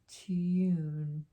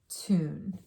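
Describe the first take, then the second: First: The vowel is said as 'yoo'. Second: The vowel is said as 'oo'. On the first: The speaker calls it wrong. "If I was to make the U sound" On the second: The speaker calls it right. "This has more of an oo sound"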